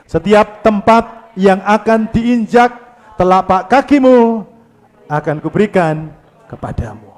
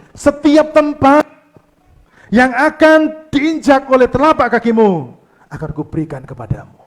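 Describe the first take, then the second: First: Steady loud congregational reading. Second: Booming divine promise, higher and louder; God's voice. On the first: Shown as a demonstration. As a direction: read it aloud together. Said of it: "Yuk kita baca dengan suara keras". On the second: Acted. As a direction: declare it as God making a promise. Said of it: "Tuhan berkata gini".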